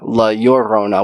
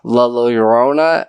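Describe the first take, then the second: First: The double L sounds like an English Y. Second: The double L sounds like an English L. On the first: The speaker calls it right. "When you have two L's, it's it makes that U" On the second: The speaker calls it wrong. "we were saying it wrong. It's not"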